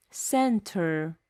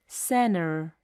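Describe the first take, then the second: First: Center with a clear T, sen-ter; careful center. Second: Center with the T dropped, senner; American center. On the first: Teacher demonstrating center with a full T. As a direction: say center with the T sounded. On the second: Teacher demonstrating center with a silent T. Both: Shown as a demonstration.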